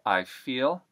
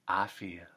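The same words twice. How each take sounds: First: The vowel in I glides as usual. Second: The vowel in I is a flat ah.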